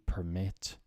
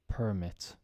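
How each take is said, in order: First: The stress is on the second syllable. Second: The stress is on the first syllable. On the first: It is used as a verb. "to permit" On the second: It is used as a noun. "think of it now as nouns"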